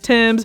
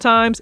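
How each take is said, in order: First: The vowel sounds like 'eh', as in 'gems'. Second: The vowel sounds like 'eye', as in 'times'. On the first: The speaker calls it right. "it's Thames" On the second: The speaker calls it wrong. "it's not Times"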